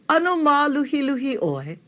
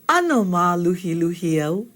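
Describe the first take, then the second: First: The pitch peaks mid-sentence, then drops at the end. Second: The pitch stays level without a middle peak. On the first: The speaker asks if the listener is kind of tired. "it peaks in the middle and drops at the end in a question" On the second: The speaker says they are kind of tired. "the statement"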